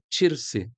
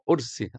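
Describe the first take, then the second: First: The word begins with a ch sound. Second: The word begins with no consonant. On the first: This is the speaker's Palestinian dialect. "No palestino esse que eu falo é tirse... o tcha o tempo inteiro, no lugar do do ka" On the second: This is how Lebanese and other speakers say it. "no Líbano e em outros países falam ursi, até cortam a letra"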